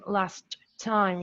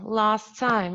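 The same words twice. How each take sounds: First: The t at the end of 'last' is pronounced. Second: The t at the end of 'last' is dropped. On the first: The speaker calls it wrong. "we don't say last time, last time" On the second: The speaker calls it right. "So we say last time, last time, only like that"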